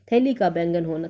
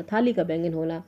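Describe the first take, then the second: First: थैली said with ai as thaili; थैली read out quickly before the correction; misread first. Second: थाली said with a long aa as thaali; थाली restated softer as the correction; corrected reading. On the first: Teacher misreads the option as थैली while reading aloud. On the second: Teacher corrects herself, saying थाली clearly. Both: Real, not acted.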